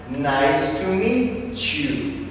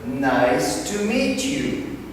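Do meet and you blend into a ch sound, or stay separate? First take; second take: blend; separate. First: The T and Y merge into ch. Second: The T and Y are said separately.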